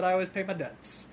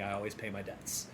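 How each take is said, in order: First: Mocking requote. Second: Sam's line. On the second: Retold or imitated. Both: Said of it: "That was a weird thing to say".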